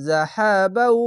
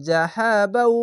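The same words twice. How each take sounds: No difference in how they are said.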